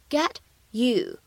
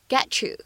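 First: The t and you stay separate. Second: The t and you blend into a ch sound.

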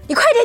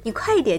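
First: It is said in an urgent, pushing tone. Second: It is said in a softer, gentler tone. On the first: The listener is being pressured to hurry. The speaker calls it wrong. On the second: The listener is being encouraged kindly to hurry. The speaker calls it right.

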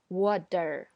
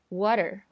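First: The middle T is a heavy, strong D sound. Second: The middle T is a very short light tap. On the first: The speaker calls it wrong. "很多同学会刚开始学的时候会发water" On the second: The speaker calls it right. "后面这个t 变成一个非常短，很像D 的这样一个声音"

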